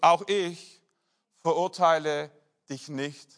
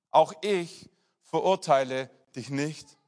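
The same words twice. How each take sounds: First: Each word set apart with long pauses; the pastor spells out Jesus' verdict to the adulteress, word by word with pauses; slow words with pauses. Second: Slow, gentle repeat. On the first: Jesus forgives the woman, slow with pauses. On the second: The pastor repeats Jesus' pardon to the congregation, slow and gentle. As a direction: let the pardon sink in gently. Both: Acted.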